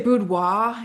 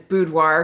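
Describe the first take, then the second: First: It is said with a fancy French-style pronunciation. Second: It is said with a plain American pronunciation. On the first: The speaker wants to sound fancy. "some people say boudoir if they want to be fancy" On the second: The speaker is American. "my preferred pronunciation is boudoir because I'm an American"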